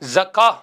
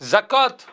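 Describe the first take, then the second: First: The word ends on a vowel without t. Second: The word ends with a final t sound. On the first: The speaker calls it right. "ஜக்கா என்றுதான் சொல்ல வேண்டும்" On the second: The speaker calls it wrong. "ஜக்காத் என்று சொல்ல முடியாது"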